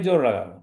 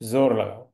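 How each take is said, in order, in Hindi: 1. पहला शब्द j ध्वनि से शुरू होता है। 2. पहला शब्द z ध्वनि से शुरू होता है। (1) "पर हिंदी में पढ़ेंगे जोर लगाओ" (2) "फारसी में हम पढ़ेंगे तो हम पढ़ेंगे जोर"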